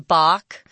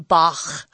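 First: The name is said the everyday English way. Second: The name is said the German way. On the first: The speaker calls it wrong. "Most people, everyday people, just say Bach" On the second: The speaker calls it right. "it's actually Bach, because it's German"

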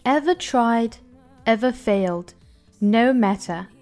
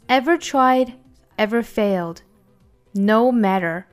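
First: It is read in a British accent. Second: It is read in an American accent. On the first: "我们来用英音读一下" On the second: "下面我们用美音读一下"

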